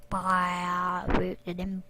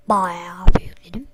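First: Drawn out low and slow, Bayağı stretched; slow low drawl. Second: Bayağı bir yükledim whispered, breathy and slow. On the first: To viewers about installing, slow low drawl. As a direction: drag the words out deep. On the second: To viewers about installing, a slow whisper. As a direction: whisper it like a secret. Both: Shown as a demonstration. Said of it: "repeated in another voice".

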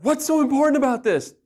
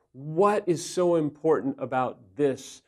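First: Loud, high exasperated demand; wrong, confrontational way. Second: Slow, sincere question in an even voice; careful asking. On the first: Husband showing how not to ask his wife, exasperated. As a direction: snap it out, pitched up and pushy. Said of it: "It's not". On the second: Husband asking wife what he is missing, careful and sincere. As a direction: ask it gently, measured, really wanting to know. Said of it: "you have to be careful". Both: Shown as a demonstration.

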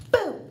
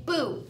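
First: Sudden loud high boo; startling boo. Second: Said in the usual way. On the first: Shown as a demonstration. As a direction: jump out and shout boo. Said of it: "Did I scare you?".

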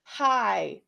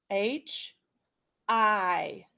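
First: Said in the usual way. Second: "H-I" as breathy h puffs, then aitch, then a long I; sounding out. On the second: Shown as a demonstration. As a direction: puff the h of "H-I" before naming each letter. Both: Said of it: "Right now we're just spelling".

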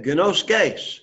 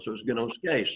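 First: "Gnoskes" with the E I said as a long A, gnos-KAYS; teacher's correction. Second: "gnoskes" again with a long A at the end, said softly; repeated correction. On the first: Teacher correcting a student's reading, "Gnoskes" with long A. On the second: Teacher repeating the right reading to the student, softer. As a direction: settle it quietly, "gnoskes" with a long A. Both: Shown as a demonstration. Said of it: "the E I makes an A sound".

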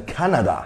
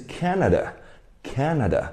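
First: Canada with a full "na" in the middle; mispronounced Canada. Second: Canada stressed on CAN, the n very light; correct Canada. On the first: Teacher repeating the mistake to avoid, mispronounced Canada. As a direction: sound out Canada wrongly, all three vowels open. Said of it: "不要读成Canada". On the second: Teacher correcting students' reading, correct light-n Canada. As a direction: say Canada with a strong first syllable and a soft, reduced ending. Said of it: "这个N很小声". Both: Shown as a demonstration.

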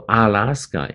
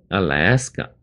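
First: "Alaska" with a heavy, full "AH" at the front; wrong first-syllable demo. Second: "Alaska" with a light uh, then strong LASS; stress on second syllable. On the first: Teacher warning against a heavy start, "Alaska" as AH-LAS-ka. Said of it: "前面不要读Alaska". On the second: Teacher correcting the first syllable, "Alaska" stressed on LASS. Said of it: "第二个音节来比较重". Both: Shown as a demonstration.

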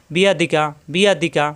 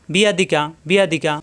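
No difference in how they are said.

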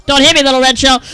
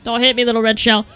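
First: Pleading yell at the shell; a much louder begging cry; loud plea. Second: Said in the usual way. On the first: Acted. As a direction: beg it louder, near a shout.

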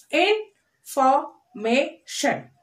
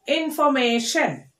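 First: INFORMATION slowly as in, for, may, shun; four separate beats on INFORMATION; split into syllables. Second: Said in the usual way. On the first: Shown as a demonstration. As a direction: pause after each syllable of INFORMATION. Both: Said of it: "splitting the word like this".

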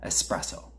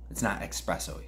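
First: Espresso said cleanly as "es-presso", no k sound; correct pronunciation. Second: It's not espresso said with a sneering "ekspresso", an extra k sound; mock the wrong way: "ekspresso" with a k; mock mispronunciation. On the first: Correcting the listeners' ekspresso with a clean Espresso. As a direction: give Espresso the proper "es" start, no k. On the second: Mocking listeners who say espresso as ekspresso. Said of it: "you fucking slouches". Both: Shown as a demonstration.

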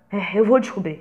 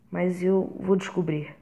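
First: "vou" stressed with resolve; louder, determined. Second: Said in the usual way. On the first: Acted. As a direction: repeat "eu vou descobrir" firmer.

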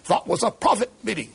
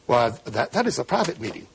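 First: Imitating a German accent, pitched higher; Kissinger's German accent. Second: Said in the usual way. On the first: Retelling Kissinger catching himself, in a mock German accent. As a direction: put the German accent back on mid-sentence. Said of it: "assuming his German accent". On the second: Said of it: "he forgot to affect his German accent".

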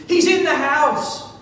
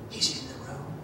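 First: Mock scream, higher and louder; retold scream. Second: Very soft, low, fearful hush; retold hushed voice. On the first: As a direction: cry out the alarm as a terrified woman. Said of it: "the lady screamed". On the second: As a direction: imitate someone hiding, barely audible. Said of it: "the lady's voice in the closet got quieter".

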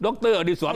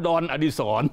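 First: ด็อกเตอร์อดิศร with the English loanword in full; full "doctor" reading of the title in ด็อกเตอร์อดิศร. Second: ดอนอดิศร with the title read as one syllable; joking literal reading. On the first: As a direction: say ด็อกเตอร์ as two syllables, "dok-toe". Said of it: "แล้วอ่านด็อกเตอร์ได้ยังไง". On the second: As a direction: say ดอน, like "don", in place of "doctor". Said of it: "มันต้องอ่านว่าดอนอดิศร". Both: Shown as a demonstration.

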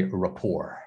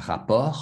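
First: RAPPORT with a silent final T; RAPPORT the English way, ending without T; English pronunciation. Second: RAPPORT said with French R sounds; RAPPORT as in French, throaty R; French pronunciation. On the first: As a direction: say RAPPORT as ruh-POR. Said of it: "in English, we say". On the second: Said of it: "comes from a French word". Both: Shown as a demonstration.

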